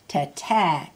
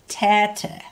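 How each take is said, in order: First: The stress is on the second syllable. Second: The stress is on the first syllable. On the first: It means big. "Tete is big" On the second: It means play. "Hear how I'm saying the first part louder?"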